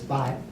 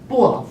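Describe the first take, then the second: First: The syllable is pronounced bai. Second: The syllable is pronounced bo, falling tone. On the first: The speaker calls it wrong. "this bo is not pronounced as Bai" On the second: The speaker calls it right. "it's pronounced as B O. Bo, fourth tone"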